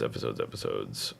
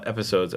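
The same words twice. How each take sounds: First: Much lower and much softer, dropping to a deep rumble. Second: Said in the usual way. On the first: Acted. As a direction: growl "episodes" way down low and quiet. Repeats word in silly voices.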